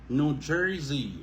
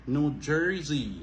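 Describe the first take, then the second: Both takes have the same delivery.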